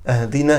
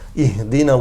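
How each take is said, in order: First: The first vowel is an 'a' sound. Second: The first vowel is an 'i' sound. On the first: Give us a gift. The speaker calls it wrong. "he puts a fatha on the alif hamza" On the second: Guide us. The speaker calls it right. "ihdina with a khasra, with a kasra"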